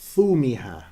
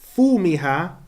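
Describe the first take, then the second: First: The word begins with a th sound. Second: The word begins with an f sound. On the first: "some will say thumiha" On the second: "some will say fumiha"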